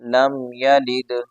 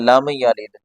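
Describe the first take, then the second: First: The final d has an echoing bounce. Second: The final d has no echoing bounce. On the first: The speaker calls it right. "दाल पर कलकला करना है।" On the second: The speaker calls it wrong. "तो ऐसे नहीं पढ़ना।"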